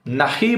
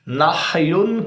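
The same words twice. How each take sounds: First: "نحی" as na-hi, losing the -yun; imitated misreading. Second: "نحیون" drawn out slowly as nah-yun; correct reading. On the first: Showing viewers how the opponent reads it, imitated misreading. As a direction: say "نحی" with an i after h, ending there. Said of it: "پڑھتا ہے". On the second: Shown as a demonstration. Contrasting the true word for viewers, correct reading. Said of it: "حالانکہ حدیث کے کیا الفاظ ہیں".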